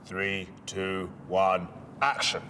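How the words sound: The voice is pitched low and deep. The speaker calls it right. "Deeper. ... Perfect. ... real authority"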